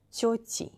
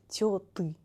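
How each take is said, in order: First: Тёти with a soft, palatalized t. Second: Тёты with hard t and ы; wrong hard T. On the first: Teacher models the plural for learners, soft T. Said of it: "Т is soft because of the letter я". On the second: Teacher shows learners the mistake, hard T. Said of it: "not тёты". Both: Shown as a demonstration.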